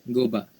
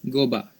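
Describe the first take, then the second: The two takes are said the same way.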